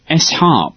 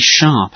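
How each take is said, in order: First: A separate letter S comes before 'harp'. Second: It is said as the single word sharp. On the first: The speaker calls it wrong. "it's saying S-Harp" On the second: The speaker calls it right. "which is meant to be sharp"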